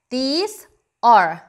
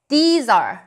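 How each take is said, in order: First: The two words are said separately with a gap. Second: The two words blend into one syllable, like zar. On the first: The speaker calls it wrong. "이렇게 발음을 띄어서 하시면 전달이 느리겠죠" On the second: The speaker calls it right. "연결해서 발음을 해주면 these are, zar 같은 발음이 나요"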